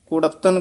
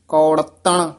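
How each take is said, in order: First: The first vowel is a short 'u' sound. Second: The first vowel is a long 'au' sound. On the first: The speaker calls it wrong. "ਕਹਿ ਜਾਂਦੇ ਆਮ" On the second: The speaker calls it right. "ਕੌ ਜਿਹੜਾ ਬੰਦ ਮੂਲ ਆ ਤੇ ਨਾਣੇ ਨਾਲ ਬੋਲਣਾ ਹੈ"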